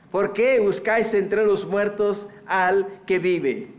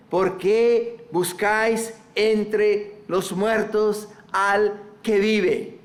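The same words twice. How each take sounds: First: Said in the usual way. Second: Drawn out slow, each word weighted; slow solemn angel's question. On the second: Acted. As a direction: let the angels' question sink in slowly. Slow emphatic reading of angels.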